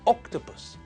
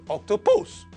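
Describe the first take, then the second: First: The stress is on the first syllable. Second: The stress is on the third syllable. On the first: The speaker calls it right. "the stress in the word is on the first syllable" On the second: The speaker calls it wrong. "and not"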